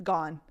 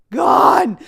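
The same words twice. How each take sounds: First: Said in the usual way. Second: "Gone." shouted high and loud; loud, high "Gone." repeated for emphasis; emphatic gone. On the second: Shown as a demonstration. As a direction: belt "Gone." like a punchline.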